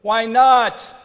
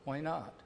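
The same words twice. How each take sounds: First: Loud, high self-pitying protest; whiny why not. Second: 1 quiet reply. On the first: Pretend. Preacher mimics David's complaint, loud whine. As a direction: wail it like a hurt child. Mocking self-pity, then answering it. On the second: Real, not acted. Quiet answer to own question.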